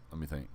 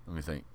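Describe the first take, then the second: No difference in how they are said.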